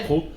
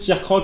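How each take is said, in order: First: The final k sound of croc is silent. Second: The final k sound of croc is pronounced. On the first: The speaker calls it wrong. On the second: The speaker calls it right.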